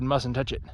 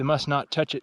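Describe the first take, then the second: First: The words are slurred together into one word. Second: Each word is said separately and clearly. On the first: This is how the name came to be said over time. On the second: This is the original form of the name.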